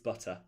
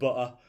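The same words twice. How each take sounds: First: The T sound in the middle is clearly pronounced. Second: The T sound in the middle is dropped. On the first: The speaker calls it right. "mum would be like, it's butter" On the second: The speaker calls it wrong. "if we didn't pronounce our T"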